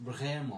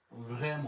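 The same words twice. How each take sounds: The two takes are said the same way.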